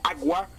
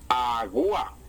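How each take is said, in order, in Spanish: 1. Las dos vocales están unidas en una sola sílaba. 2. Las dos vocales están separadas en sílabas distintas.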